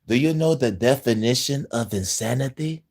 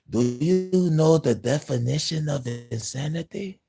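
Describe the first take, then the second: First: It is said in his own normal voice. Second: It is said imitating Voss from Far Cry Three.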